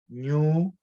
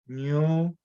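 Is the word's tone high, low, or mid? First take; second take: low; low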